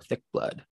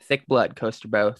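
First: Whispered. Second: Said in the usual way. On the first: Real, not acted. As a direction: repeat "Thick blood" in a whisper. Repeats the brag under breath.

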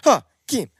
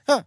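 First: Raised voice, name called loudly; calling out. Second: Said in the usual way. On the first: Real, not acted. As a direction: call his name to get attention. Calling out to get attention.

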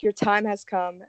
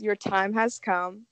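First: Creepy butler. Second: Slow, ominous mansion host; creepy butler. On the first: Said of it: "open the doors and be like". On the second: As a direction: announce doom slowly, somberly. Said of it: "my favorite thing to say is". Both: Acted.

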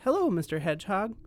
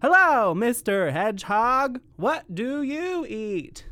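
First: Said in the usual way. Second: Loud, slow, wide-mouthed frog greeting; big mouth frog. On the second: Acted. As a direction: open wide and boom the hello.

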